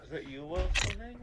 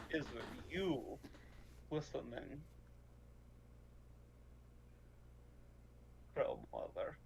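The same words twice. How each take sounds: First: Said in the usual way. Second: Softer, lower, secretive voice; hushed address. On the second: Acted. Player addressing Crow Mother through the bird, low and hushed. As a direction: sink into a low, hushed question.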